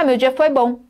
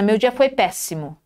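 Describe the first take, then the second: First: It is said flatly, without emphasis. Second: It is said emphatically, stressing the last word.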